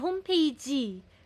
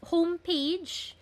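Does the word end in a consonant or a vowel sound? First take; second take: vowel; consonant. First: The word ends in an added vowel sound. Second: The word ends in a consonant sound. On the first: "palaging vowel ending" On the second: "dapat j"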